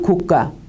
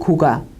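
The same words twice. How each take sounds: First: The second syllable starts with a tensed consonant. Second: The second syllable starts with a plain consonant. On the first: "경음으로 발음을 합니다" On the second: "그냥 평음으로 발음을 하고요"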